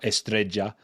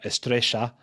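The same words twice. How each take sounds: First: The double L sounds like j. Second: The double L sounds like sh. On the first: It is Colombian Spanish. "in Colombia, that y town, uh, changes to a j" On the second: It is Argentine Spanish. "that j in Argentine Spanish turns to a sh"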